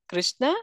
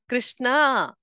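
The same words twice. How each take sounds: First: The final vowel is short. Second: The final vowel is drawn out long. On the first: It names the Lord. "While Krishna refers to the Lord" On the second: It names Draupadi. "if we elongate the sound and say Krishna, then it refers to Draupadi"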